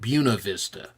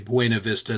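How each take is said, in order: First: The name is pronounced the local way. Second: The name is pronounced the Spanish way. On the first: This is how the town's residents say it. "They've always said Buena Vista" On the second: This is the original Spanish form. "the locals refuse to say Buena Vista"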